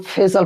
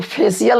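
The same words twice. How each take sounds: First: फेशियल as "phe-sal"; two-beat फेशियल without the "i"; correct pronunciation. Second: फेशियल as "phe-si-yal"; three beats in फेशियल, ending "i-yal"; wrong pronunciation. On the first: Teacher giving students the right reading, correct pronunciation. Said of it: "यहाँ पे हम लोग फेशियल पढ़ते हैं". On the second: Teacher telling students what not to read, wrong pronunciation. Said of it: "फेशियल नहीं पढ़ते हैं". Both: Shown as a demonstration.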